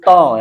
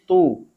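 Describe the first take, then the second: First: The vowel is an open 'oh' sound. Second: The vowel is a close 'oo' sound. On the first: The speaker calls it wrong. "bukan to" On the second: The speaker calls it right. "domah masuk di ta menjadi tu"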